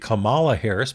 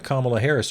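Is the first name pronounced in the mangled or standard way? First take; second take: mangled; standard. First: The first name is pronounced in a mangled way. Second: The first name is pronounced the standard way. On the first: The speaker calls it wrong. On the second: The speaker calls it right.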